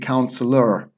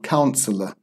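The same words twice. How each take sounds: First: The ending has a slight, soft R sound. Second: The ending is a plain vowel with no R. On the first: "in American English, they may have a very small R sound" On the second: "It's it's just pronounced uh. There's no R"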